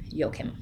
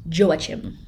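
First: The name is said with a German pronunciation. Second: The name is said with an English pronunciation. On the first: "but we're going to go with Joachim" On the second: "I would have pronounced it as an English person"

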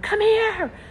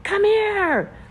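No difference in how they are said.

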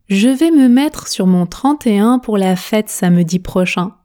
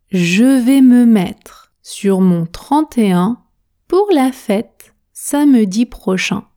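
First: The sentence is spoken at a normal, fluent speed. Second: The sentence is spoken very slowly and carefully. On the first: "Vitesse standard maintenant" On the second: "On commence à la vitesse tortue"

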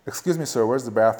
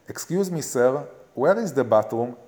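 First: It is said in an American accent. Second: It is said in an Israeli accent.

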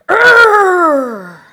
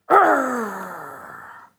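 First: The growl is louder and bigger. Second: The growl is somewhat softer.

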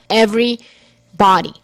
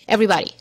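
First: The word is split with a break after every. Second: The word is said as one unbroken unit.

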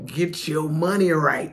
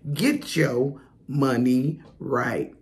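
First: The phrase is said plainly, without extra energy. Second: The phrase is said with lively flair and energy.

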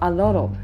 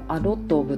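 First: The words run together with the t like d. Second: Each word is said separately with a clear t. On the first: The speaker calls it right. "聞こえ方としてはアロロみたいな感じで聞こえる" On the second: The speaker calls it wrong. "アロットオブって発音しないじゃないですか"

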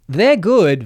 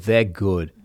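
First: It is said in a light head voice. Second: It is said in a deep diaphragm voice. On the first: "There's the head" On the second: "the diaphragm"

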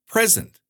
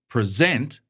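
First: The stress is on the first syllable. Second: The stress is on the second syllable. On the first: It means a gift or the current time. "pronounced with stress on the first syllable to mean a gift or now" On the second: It means to give or introduce something. "If it's on the second syllable"

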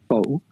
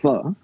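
First: The word ends in an 'oh' vowel, no r. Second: The word ends in an 'ah' vowel, no r. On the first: "we pronounce that like fo" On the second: "occasionally we pronounce that like fa"

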